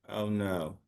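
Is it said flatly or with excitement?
flatly. It is said flatly, without feeling.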